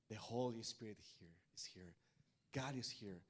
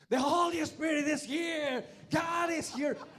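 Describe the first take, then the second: First: It is said calmly and gently. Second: It is said loudly and excitedly.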